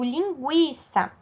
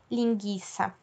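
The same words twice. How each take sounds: First: The u after the g is pronounced. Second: The u after the g is silent. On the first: The speaker calls it right. "eu digo linguiça. Nesse caso, o ele é pronunciado" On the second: The speaker calls it wrong. "eu não falo linguiça"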